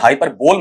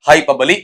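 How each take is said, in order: First: The word ends with a 'bowl' sound. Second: The word ends with a short 'blee' sound. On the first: The speaker calls it wrong. "इसका उच्चारण हाइपर बोल मत कर देना बेटा" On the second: The speaker calls it right. "क्या बनेगा आपका?"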